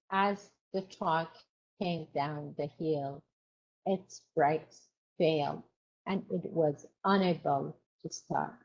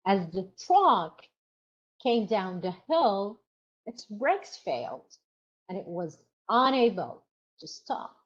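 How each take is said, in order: First: A dull, lifeless reading with no sentence stress; flat, no sentence stress. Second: A lively read with clear sentence stress. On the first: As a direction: read "As the truck came down the hill" evenly, with no stresses. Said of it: "I read it like this". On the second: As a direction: read it stressing the key words "truck", "brakes", "stop". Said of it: "If I read it". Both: Shown as a demonstration.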